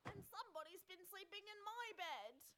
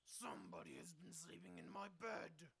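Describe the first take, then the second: First: It is said in a whining voice. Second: It is said in a big, growly voice.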